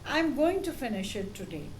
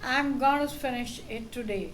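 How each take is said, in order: First: 'Going to' is said in full. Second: 'Going to' is reduced to 'gonna'. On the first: The speaker sounds clear and professional. The speaker calls it right. "Improved pronunciation. The words are clear and professional" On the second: The speaker sounds casual or lazy. The speaker calls it wrong. "short form, sounds casual or lazy in formal settings"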